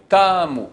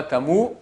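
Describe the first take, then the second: First: "Tamu" with a strong "Ta", falling away; front-stressed "Tamu"; stress on first syllable. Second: "tamu" rising onto a stressed "mu"; end-stressed "tamu", tune going up; wrong stress, last syllable. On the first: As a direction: hit the "Ta" of "Tamu", let "mu" drop. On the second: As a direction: put the accent on the "mu" of "tamu". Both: Shown as a demonstration. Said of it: "l'accent tonique est sur le début du mot".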